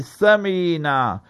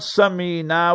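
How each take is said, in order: First: The name begins with a non-s sound. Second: The name begins with a plain s sound. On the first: The name carries its intended meaning. The speaker calls it right. "say Samina" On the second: The name means something unflattering. The speaker calls it wrong. "not Samina with a sin"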